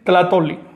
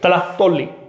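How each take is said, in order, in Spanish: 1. La consonante del medio está ausente. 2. La consonante del medio es un corte suave. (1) "No pronuncian ese saltillo" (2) "En el centro"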